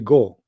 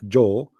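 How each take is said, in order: First: The word begins with a hard G sound. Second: The word begins with a soft J sound. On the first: This is how Egyptian speakers say it. "they say go" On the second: This is how most speakers say it. "they don't say the letter J, Joe"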